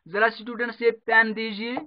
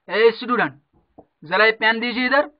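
First: It is said at a normal, softer volume. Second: It is said loudly, with more energy.

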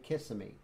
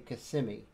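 First: It uses the outsider's pronunciation of the name. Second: It uses the residents' pronunciation of the name. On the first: The speaker is a visitor to the area. The speaker calls it wrong. "they don't say Kissimmee" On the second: The speaker lives in the area. The speaker calls it right. "They say Kissimmee"

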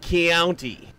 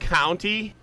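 First: The vowel has a Southern glide after the k. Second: The vowel is plain, without a glide. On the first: "I said Keounty" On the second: "Instead of saying county"

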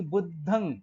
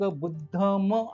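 First: The word ends with a nasalized vowel. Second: The word ends with a full m sound. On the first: The speaker calls it right. "अनुनासिक या अर्थाने की बुद्धं धम्मं संघं असा उच्चार झाला पाहिजे" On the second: The speaker calls it wrong. "अनेक लोक बुद्धम असं म्हणतात"

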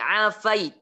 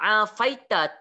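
First: The word ends on a bare t sound. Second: The word ends with a short a vowel. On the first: The reader stops at this word. "Kita waqaf tuan-tuan" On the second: The reader carries on without stopping. "Tapi kalau tuan-tuan baca"

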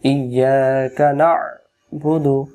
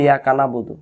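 First: The throaty ain sound is clearly pronounced. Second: The throaty ain sound is left out. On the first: The speaker calls it right. "যেমন সূরাতুল ফাতিহা" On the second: The speaker calls it wrong. "আর আমরা তো বলি ইয়াকা না'বুদু, তখন আইন অক্ষর বাদ চলে যায়"

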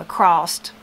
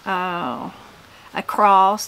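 First: The word cross ends with an added t. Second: The word cross ends plainly with an s.

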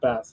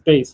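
First: The vowel sounds like the one in 'gas'. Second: The vowel sounds like the one in 'face'. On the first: The fish is meant. The speaker calls it wrong. "not bass, obviously. Because why would there be a fisherman on the show?" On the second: The low-pitched instrument is meant. The speaker calls it right. "I think it's bass"

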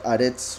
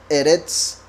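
First: The word begins with an 'a' vowel. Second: The word begins with an 'e' vowel. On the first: This is the form used at the end of a verse. "cuando aparece al final de un verso se pronuncia Aretz" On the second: This is the ordinary form of the word. "Esto sería Eretz"

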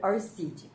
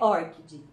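First: The stress is not on the first syllable. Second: The stress is on the first syllable. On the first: The speaker calls it wrong. "Eu acho que é a forma mais caipira que eu conheço" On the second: The speaker calls it right. "Vamos imaginar que tem um acento aí no O"

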